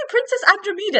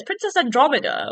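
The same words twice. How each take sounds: First: Andromeda said wrongly with a long "MEE"; high-pitched an-druh-MEE-duh for Andromeda; mispronounced Andromeda. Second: Andromeda said as an-DROM-uh-duh, higher than usual; correct Andromeda. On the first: Podcaster mocking her own mistake, Andromeda mispronounced as "MEE-duh". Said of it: "I've been saying it wrong". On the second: Podcaster putting her slip right, Andromeda with short stressed "DROM". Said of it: "how you're supposed to say it". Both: Shown as a demonstration.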